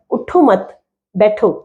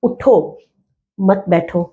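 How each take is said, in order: First: اٹھو مت run together, a break, then بیٹھو alone; pause after مت. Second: اٹھو set apart as a command, a break, then مت بیٹھو together; pause after اٹھو. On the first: Teacher moving the exclamation to show students, pausing right after مت. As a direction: say اٹھو مت as one phrase, stop, then بیٹھو. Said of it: "اگر یہ exclamation یہاں لگ جاتا ہے". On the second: Teacher showing where the exclamation falls, pausing right after اٹھو. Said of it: "اگر یہ ایکسکلیمیشن اٹھو کے بعد لگ رہا ہے". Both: Shown as a demonstration.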